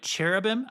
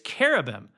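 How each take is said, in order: First: The word begins with a ch sound. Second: The word begins with a k sound. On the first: The speaker calls it wrong. "I say it that way sometimes with the C H sound" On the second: The speaker calls it right. "the C H is pronounced like a K. And so technically it's cherubim"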